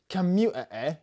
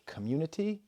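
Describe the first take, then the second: First: "commu-, eh, eh" with the T and consonants swallowed into catches; glottal stops. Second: Said in the usual way. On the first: Shown as a demonstration. Showing how Bristol says community, "commu-, eh, eh" in glottal stops. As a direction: chop "community" apart with glottal stops, higher and louder. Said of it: "a lot of the glottal stop". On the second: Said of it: "if you say a word like".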